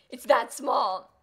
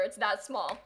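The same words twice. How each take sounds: First: It's that small drawn out slowly and loudly; stretched emphasis. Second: Said in the usual way. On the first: Shown as a demonstration. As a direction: lean hard into It's that small, slow. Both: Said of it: "repeats it stretched".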